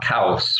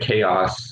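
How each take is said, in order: First: It is said with an Italian accent. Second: It is said with an English accent.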